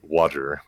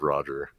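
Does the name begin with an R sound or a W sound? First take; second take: W; R. First: The name begins with a W sound. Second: The name begins with an R sound. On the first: This is how the lisping character says it. "he replaces it with W" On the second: This is the usual way to say it. "Instead of saying R words"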